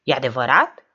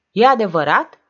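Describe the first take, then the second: First: Firm first asking, rising at the end; urgent question. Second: Higher, much louder rising question; insistent repeat. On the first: Mareș grabs Diamantopol by the shoulder, urgent question. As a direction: demand to know if it's true. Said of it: "Îl smuci de umăr pe Diamantopol". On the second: Writer repeats his unanswered question to Diamantopol, insistent. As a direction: press harder for the answer. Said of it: "repetă scriitorul". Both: A narrator's reading.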